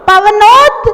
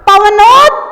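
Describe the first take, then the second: No difference in how they are said.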